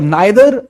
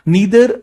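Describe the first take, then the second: First: The first vowel sounds like 'eye'. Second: The first vowel sounds like 'ee'. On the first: This is the American English form. "नाइदर is a American English" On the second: This is the British English form. "नीदर is a British English"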